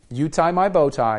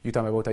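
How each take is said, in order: First: The phrase is said at an ordinary pace. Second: The phrase is said rapidly, run together.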